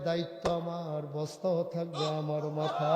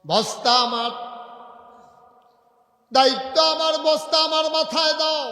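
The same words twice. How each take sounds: First: Gentle insistence. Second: Very high, loud commanding cry; impassioned insistence. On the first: Umar answering his workers, calm insistence. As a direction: state it calmly, no shouting. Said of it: "Umar মুচকি হেসে কয়". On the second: Umar demanding the sack from workers, impassioned shout. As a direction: shout the demand at full force. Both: Acted.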